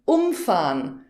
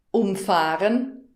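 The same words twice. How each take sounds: First: Umfahren with um stressed and a falling end. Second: Umfahren with the fahren part stressed and a rising end. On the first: Teacher showing a learner the word meaning knock over, um stressed. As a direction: punch the um in umfahren. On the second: Teacher showing a learner the word meaning drive around, fahren stressed. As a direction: Umfahren said slowly, leaning on fahren. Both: Shown as a demonstration. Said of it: "unterschiedlich betont wird".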